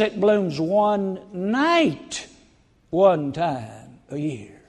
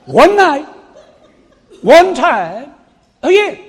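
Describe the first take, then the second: First: One night, one time a year drawn out very slowly; slow emphasis. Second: Much higher, much louder "One night, one time a year"; shouted emphasis. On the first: Preacher telling congregation the rare bloom, slow and deliberate. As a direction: stretch "one night" out slowly, each word weighed. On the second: Preacher exclaiming to congregation about the bloom, shouted. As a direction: belt out "One night" with a laugh. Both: Real, not acted.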